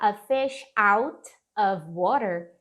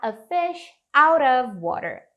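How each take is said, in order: First: Out and of are said as separate words. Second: Out and of are linked with a light r-like sound. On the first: The speaker calls it wrong. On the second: The speaker calls it right. "você pode falar a fish out of water. Out of. Surge até um sonzinho de um Rzinho"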